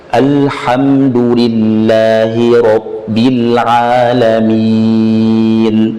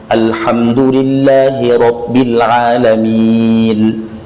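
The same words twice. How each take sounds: First: It is recited at a medium pace. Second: It is recited at a fast pace. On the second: "yang cepat tapi bertajwid"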